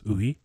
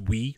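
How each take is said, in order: First: It sounds like two syllables blended together. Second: It sounds like one short English syllable. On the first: The speaker calls it right. "It's almost two syllables. They're just kind of mixed together" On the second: The speaker calls it wrong. "People think it's we, like W E, but it's not"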